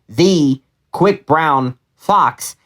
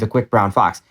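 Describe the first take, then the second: First: It is read in a choppy, emphasized way. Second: It is read in a smooth, even way.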